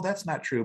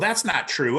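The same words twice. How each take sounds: First: It is said calmly, without a raised voice. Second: It is said loudly, with a defensive tone. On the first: "I sort of read this as" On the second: "I'm raising my voice and getting defensive"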